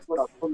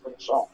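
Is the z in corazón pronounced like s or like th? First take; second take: th; s. First: The z is pronounced like English th. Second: The z is pronounced like an s. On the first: "no dice corazón" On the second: "dice corazón, como un cubano"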